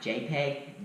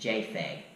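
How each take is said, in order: First: The middle consonant is a 'p' sound. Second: The middle consonant is an 'f' sound.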